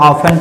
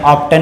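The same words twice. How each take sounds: First: "ऑफन" as OFF-en, no t; "ऑफन" with f straight into -en; silent t. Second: "ऑफ्टन" as OFF-tun, t sounded; "ऑफ्टन" with a hard t after f; wrong pronunciation. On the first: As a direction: say "ऑफन" leaving the t out. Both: Shown as a demonstration. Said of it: "ऑफ्टन नहीं पढ़ते हैं".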